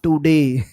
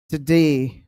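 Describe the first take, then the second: First: The first vowel is full and clearly pronounced. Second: The first vowel is short and reduced. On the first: The speaker calls it wrong. "not today" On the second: The speaker calls it right. "It's today"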